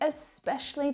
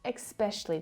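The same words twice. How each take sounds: First: It begins with a plain 'es' sound. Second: It begins with an 'ex' sound. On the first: The speaker calls it right. "This one is especially tricky" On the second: The speaker calls it wrong. "not especially tricky"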